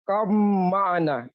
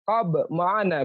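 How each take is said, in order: First: The b sound blends into the following m. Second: The b sound is kept before the m. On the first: "Kenapa dibaca begitu?" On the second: "Kenapa nggak dibaca qab ma'ana begitu?"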